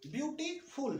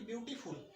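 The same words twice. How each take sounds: First: ब्यूटीफुल split as ब्यूटी, then फुल; suffix set apart. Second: Said in the usual way. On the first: Shown as a demonstration. Teacher showing the suffix, ब्यूटीफुल in two parts. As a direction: say ब्यूटीफुल with a small break before फुल. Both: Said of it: "अंत में फुल लगा हुआ है".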